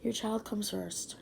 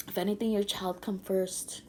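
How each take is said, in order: First: "comes" said with its final s, a little slower; grammar fixed. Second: Says "come" without the s; "your child come first" with bare "come"; grammar slip. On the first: Mom fixing her grammar for viewers, says "comes" carefully. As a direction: correct herself: "Your child comes first". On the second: Mom giving advice to viewers, slips on "come". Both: Shown as a demonstration. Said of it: "I'm sorry, grammar".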